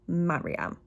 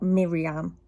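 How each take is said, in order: First: The first syllable sounds like 'mar'. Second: The first syllable sounds like 'mir'. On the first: The speaker calls it right. "I think it's Mariam" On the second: The speaker calls it wrong. "I think I pronounced her name wrong"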